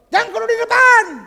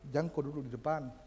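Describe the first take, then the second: First: It is said in a harsh, rude tone. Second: It is said in a gentle, polite tone. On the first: The listener is offended and leaves. The speaker calls it wrong. "Kalau yang kedua dikasih tahu begitu, langsung pulang" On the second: The listener accepts the advice. The speaker calls it right. "Perhatikan cara saya bicara"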